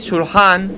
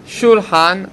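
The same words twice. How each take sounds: First: The stress is on the second syllable. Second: The stress is on the first syllable. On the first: "אז אמרתי טעם בחטא" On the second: "אמרתי טעם בשין"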